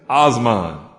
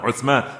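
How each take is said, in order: First: It starts with o and has an s sound. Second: It starts with u and has a th sound. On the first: "Americans, they mess it up all together. They say Osman" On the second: "Instead of saying Uthman"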